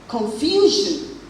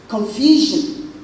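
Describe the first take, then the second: No difference in how they are said.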